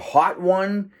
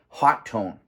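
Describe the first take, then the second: First: The name is said with one t sound. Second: The name is said with two t sounds. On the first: "in my career, have called that uh, Hotone, a hot one" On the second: "the pronunciation convention these days has been hot tone"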